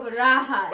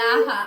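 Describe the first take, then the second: First: The word begins with an R sound. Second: The word begins with an L sound. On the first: The speaker calls it right. "Instead of raha" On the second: The speaker calls it wrong. "they say"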